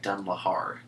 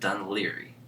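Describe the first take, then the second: First: The name ends with a 'lahar' sound. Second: The name ends with a 'leary' sound. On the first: This is how the name looks written on the map. "on the map, it looks like Dunlahar" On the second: This is how local people actually say the name. "they pronounce it Dunleary"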